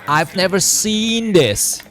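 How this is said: It is said slowly and drawn out, relaxed. The speaker is calmly amazed. "a bit like of a slow out, you know, kind of chilling effect"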